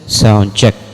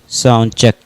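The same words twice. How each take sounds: First: The voice has an audible echo trailing it. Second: The voice sounds dry, with no echo. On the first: "Echo at eleven o'clock na volume" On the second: "Ito na po yung boses natin na may treble at bass effect"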